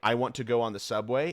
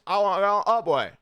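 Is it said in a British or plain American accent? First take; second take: American; British. First: It is said in a plain American accent. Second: It is said in a put-on British accent.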